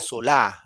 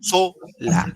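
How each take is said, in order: First: The stress is on the last syllable. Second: The stress is on the first syllable. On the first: The speaker calls it wrong. "diría solá, entonces no es correcto" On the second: The speaker calls it right. "so, so nomás"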